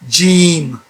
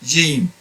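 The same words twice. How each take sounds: First: The first sound is a firm J. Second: The first sound is between G and J. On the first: "firm Jim like I'm pronouncing it" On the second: "They pronounce it between G and J"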